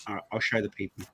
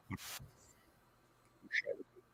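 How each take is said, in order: First: Said in the usual way. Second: Breathy stage whisper. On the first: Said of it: "said normally, then repeated". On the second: Pretend. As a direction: drop to a whisper for the second take. Repeats same words unvoiced.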